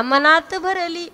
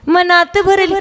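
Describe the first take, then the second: First: Soft, slow half-sung line; sung, retold prompt. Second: Mock old-woman echo of a bhajan line; mimicked old woman. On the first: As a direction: replay your own gentle sung cue. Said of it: "मी म्हटलं, "म्हणा". (sung, हळू, संथ सुरात सांगितलेली ओळ) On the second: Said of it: "म्हातारी म्हणे". (म्हातारीची नक्कल)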